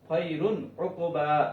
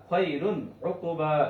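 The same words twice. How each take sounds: Both takes have the same delivery.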